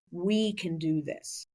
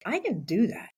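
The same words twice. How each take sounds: First: "We" drawn out slowly and firmly; slow down and lean on "We"; stress on We. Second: "I" pushed higher in a dawning realization; stress on I. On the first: Thinking of the whole team, slow stress on "We". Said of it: "then I started to think". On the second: Thinking of taking the top job, stress on "I". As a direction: lean on "I", as if surprised at yourself. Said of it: "more so than I can do it". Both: Retold or imitated.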